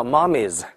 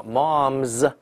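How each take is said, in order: First: "mommies" with an extra "iz" syllable, "mom-iz"; 错误读法. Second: "moms" as one syllable, m running straight into a buzzed z; 词尾发z. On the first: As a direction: wrongly add a vowel before the final z in "mommies". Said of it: "不能叫mommies". (把"mommies"错读成两个音节，z前多加元音) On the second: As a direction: draw out "moms" with a voiced z ending. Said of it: "它要发z". ("moms"只读一个音节，m后直接发z) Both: Shown as a demonstration.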